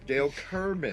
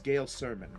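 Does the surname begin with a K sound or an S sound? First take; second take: K sound; S sound. First: The surname begins with a hard K sound. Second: The surname begins with a soft S sound. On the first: The speaker calls it right. "it's actually Kerman" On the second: The speaker calls it wrong. "so I got that wrong right away"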